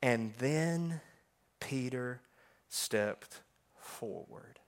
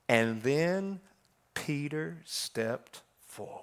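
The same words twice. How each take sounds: First: Low and very slow, a pause before stepped forward; drawn-out reading. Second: Low, slow near-whisper of the verse; hushed reading. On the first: Preacher savouring his favourite verse, slow and drawn out. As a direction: savour each word slowly. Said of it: "I love these words". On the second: Preacher leaning in to the congregation, hushed whisper. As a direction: breathe the words as a reverent secret. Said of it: "I want you to listen to this". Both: Shown as a demonstration.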